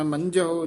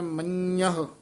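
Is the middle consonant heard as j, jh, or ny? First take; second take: j; ny. First: The middle consonant is a plain j sound. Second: The middle consonant is a nasal ny sound. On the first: The speaker calls it wrong. "ਕਈ ਨਾ ñੇ ਦੀ ਜਗ੍ਹਾ ਜੱਜਾ ਬੋਲ ਜਾਂਦੇ ਆ" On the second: The speaker calls it right. "ਇਸ ਨੂੰ ਉਚਾਰਨ ਕਰਨਾ ਹੈ ਮੰਨਹ"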